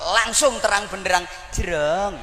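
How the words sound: It is said in a coy, coquettish way. The speaker calls it wrong.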